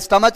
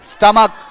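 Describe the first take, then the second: First: The word ends with a 'ch' sound. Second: The word ends with a 'k' sound. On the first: The speaker calls it wrong. "इसको कई लोग स्टमच पढ़ता है, स्टमच नहीं" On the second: The speaker calls it right. "नहीं स्टमक"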